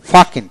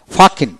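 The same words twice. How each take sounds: The two takes are said the same way.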